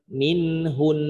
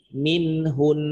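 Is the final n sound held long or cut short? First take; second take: long; long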